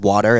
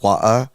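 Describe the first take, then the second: First: It is said in an American accent. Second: It is said in a British accent.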